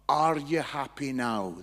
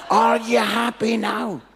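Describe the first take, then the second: First: Slow, low-pitched dismissive question; unimpressed retort. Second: Slow, very loud, raised pitch; incredulous repeat. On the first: Guy answers the speaker's prophecy, slow unimpressed retort. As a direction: ask it slowly, pitch dropped, unimpressed. Guy's unimpressed reply, first take. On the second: Speaker repeats the guy's reply to the crowd, loud disbelief. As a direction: blast the question out word by word. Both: Retold or imitated.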